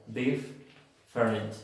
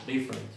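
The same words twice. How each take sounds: First: "different" broken in two at a doubled F, "dif-ferent"; mispronounced "different", both Fs sounded separately; wrong double F. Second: "different" run together with just one F; single F. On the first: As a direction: pause on the F in "different" as a learner's mistake. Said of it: "no se pronuncia different". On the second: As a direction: say "different" smoothly, no break at the F. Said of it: "una sola F". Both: Shown as a demonstration.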